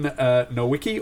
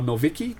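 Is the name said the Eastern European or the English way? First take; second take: English; Eastern European. First: The name is said with an English pronunciation. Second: The name is said with an Eastern European pronunciation.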